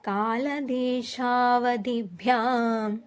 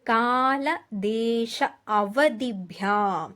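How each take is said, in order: First: The last words are run together as one. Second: The words are said separately, split apart.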